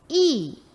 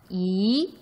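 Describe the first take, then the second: First: The pitch falls sharply from high to low. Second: The pitch rises from middle to high. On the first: "사성이 되고" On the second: "이렇게 올라간다"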